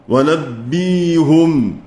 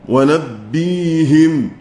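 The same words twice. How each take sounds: No difference in how they are said.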